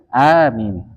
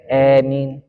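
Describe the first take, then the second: First: The first vowel is long with a light m. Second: The first vowel leans toward an e sound. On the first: "a-nya dimatkan, dipanjangkan, mimnya dibaca ringan" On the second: "Hamzanya dimiringkan. ... maka bacanya e"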